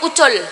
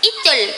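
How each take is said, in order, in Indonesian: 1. Kata itu diawali dengan vokal 'u'. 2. Kata itu diawali dengan vokal 'i'. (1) "Nek basa Surabaya ucul" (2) "pakai i"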